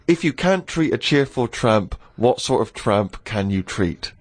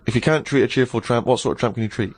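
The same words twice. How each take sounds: First: It is said at a normal, unhurried pace. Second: It is said quickly, at a rapid pace.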